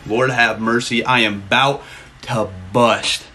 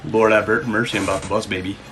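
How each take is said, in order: First: Slow, low and deliberate; drawn-out catchphrase. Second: Said in the usual way. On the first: Real, not acted. Streamer repeats the catchphrase to chat, slow and drawn out. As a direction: stretch each word out, especially "about to bust".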